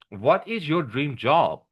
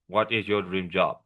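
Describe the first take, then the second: First: The question is asked with a curious tone. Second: The question is asked with a flat tone. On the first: The speaker calls it right. "sounding curious. Like" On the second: The speaker calls it wrong. "Instead of"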